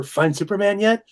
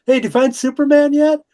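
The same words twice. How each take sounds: First: Much higher pestering question, not shouted; eager retold question. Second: High, loud call across a crowd; retold yell. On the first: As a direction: pester lightly, pitch climbing to "yet". Retelling his repeated childhood question. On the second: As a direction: holler it out to an old friend. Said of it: "I yelled out".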